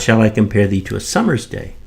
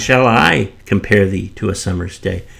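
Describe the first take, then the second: First: The stress falls on the word summer's. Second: The stress falls on the word I. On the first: A summer's day, not another season, is chosen. "shall I compare thee to a summer's day or a winter's" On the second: The speaker, not someone else, does the comparing. "shall the poet compare uh, thee as opposed to someone else comparing thee?"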